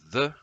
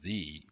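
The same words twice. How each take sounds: First: It is said as the reduced form, 'thuh'. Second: It is said as the full form, 'thee'. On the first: It comes before a word starting with a consonant sound. "the with a consonant sound" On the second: It comes before a word starting with a vowel sound. "the with a vowel sound"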